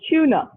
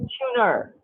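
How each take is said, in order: First: The word ends in a vowel with no R sound. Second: The word ends with an audible R sound. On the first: This is how non-rhotic speakers say it on its own. The speaker calls it right. "they will not pronounce the R sound. They will say tuna" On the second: Non-rhotic speakers do not say it this way on its own. The speaker calls it wrong. "They will not say tuner"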